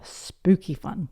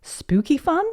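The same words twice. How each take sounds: First: Slower, falling granny reply; amused confirmation. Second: Put-on high, rising, hopeful little girl; child's question. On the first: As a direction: confirm it slowly, lightly amused. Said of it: "said Granny Pig, laughing". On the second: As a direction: ask high with a rise. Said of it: "asked Peppa". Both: A narrator's reading.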